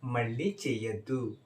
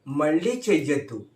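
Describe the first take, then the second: First: It is said in a calm, plain tone. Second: It is said in an angry tone.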